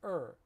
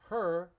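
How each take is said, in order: First: The word is reduced, dropping the h sound. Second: The word is said fully with its h sound. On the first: "but the reduced form of er" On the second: "we use her"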